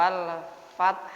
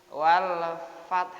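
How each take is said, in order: No difference in how they are said.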